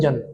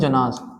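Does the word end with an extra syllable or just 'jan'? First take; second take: just jan; extra syllable. First: The word ends after the short syllable jan. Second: The word ends with an extra final syllable. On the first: This is how the word is normally spoken. "लेकिन हम pronounce क्या करते हैं? जन।" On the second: This is how the word is written. "लिखने के word में जनाज"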